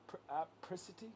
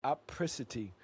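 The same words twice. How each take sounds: First: Apricity? asked with a rising pitch, softer, unsure; unsure try. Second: Apricity. said with a firm falling tune; settled pronunciation. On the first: Testing a new word on his friend, rising and unsure. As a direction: test "apricity" as a quiet question. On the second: Settling the new word for his friend, firm fall. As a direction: land "Apricity" flat and sure. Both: Real, not acted.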